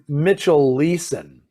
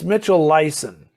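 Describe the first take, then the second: First: The surname's first vowel sounds like 'ee'. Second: The surname's first vowel sounds like 'eye'. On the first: The speaker calls it wrong. "I was told at one point that it's Mitchell Leeson, and then it, it's not" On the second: The speaker calls it right. "It's Mitchell Lyson"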